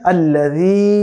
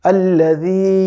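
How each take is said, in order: The two takes are said the same way.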